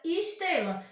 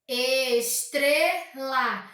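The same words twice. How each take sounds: First: Said in the usual way. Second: ESTRELA bem lento, ES-TRE-LA; separado em sílabas. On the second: Shown as a demonstration. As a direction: diga "Estrela" em três sílabas esticadas. (silabado devagar, ES... TRE... LA) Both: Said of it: "Se ela possui três sílabas".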